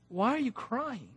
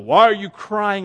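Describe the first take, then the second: First: It sounds gentle and comforting. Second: It sounds stern and rebuking.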